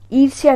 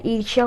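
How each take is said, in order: First: ईर्ष्या as 'eer-si-ya' with s; wrong pronunciation. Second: ईर्ष्या as 'eer-shya' with sh; correct pronunciation. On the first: Teacher showing the mistake, 'irsiya' for ईर्ष्या. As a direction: use an s and extra i in ईर्ष्या. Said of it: "ईर्ष्या नहीं होता है". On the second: Teacher correcting the word, sh sound in ईर्ष्या. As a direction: make the middle of ईर्ष्या a sh. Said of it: "ईर्ष्या होता है". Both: Shown as a demonstration.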